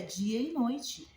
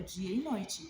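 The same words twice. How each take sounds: First: Dia e noite stretched out slowly, rising at the end; dia e noite, slow and emphatic with a rising end; drawn-out emphasis. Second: Said in the usual way. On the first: Real, not acted. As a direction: lean on each word of dia e noite slowly. Repeats for emphasis.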